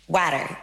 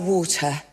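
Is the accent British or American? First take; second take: American; British. First: It is said with an American accent. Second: It is said with a British accent.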